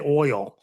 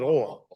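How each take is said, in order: First: The word is said plainly in the local accent. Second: The word is drawled in a deep voice. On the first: This is how people here say it. "We say oil here" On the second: This imitates how someone else says it. "He says it oil. ... It's kind of like a deep voice Paula Dean"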